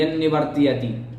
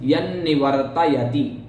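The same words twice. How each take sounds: First: The opening 'ya' sound is clipped. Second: The opening 'ya' sound is said in full. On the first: The speaker calls it wrong. "कुछ लोग बोलते थे यन्निवर्तयति, इस प्रकार नहीं" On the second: The speaker calls it right. "यकार पूरा बोलना है ... यन्निवर्तयति इस प्रकार"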